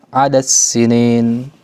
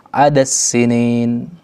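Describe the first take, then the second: Both takes have the same delivery.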